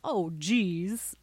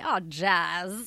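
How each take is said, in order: First: The last word is said normally, with an 'ee' vowel. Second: The last word is said slightly off, with an 'a' vowel. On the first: "Like the word geez" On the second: "Now I say, oh, jazz. Like Chez"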